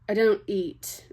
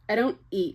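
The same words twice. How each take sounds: First: It is spoken in a put-on British-sounding accent. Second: It is spoken in the reader's own natural accent. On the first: "that was too British" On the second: "I'm just gonna read it how I'm gonna read it"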